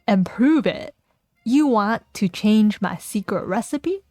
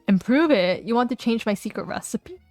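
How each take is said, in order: First: It is said in a Southern American accent. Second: It is said in a plain, unaccented voice. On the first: The speaker calls it right. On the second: The speaker calls it wrong.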